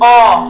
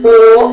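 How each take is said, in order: First: The vowel is said with the mouth open. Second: The vowel is said with the mouth closed. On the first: "Eu falo o com a boca aberta" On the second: "olha como que eu fecho a minha boca"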